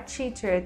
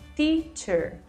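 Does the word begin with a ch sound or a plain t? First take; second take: ch sound; plain t. First: The word begins with a ch-like sound. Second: The word begins with a plain t sound. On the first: The speaker calls it wrong. "não é teacher" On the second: The speaker calls it right. "com o som esse T, lá igual o pessoal do Nordeste fala"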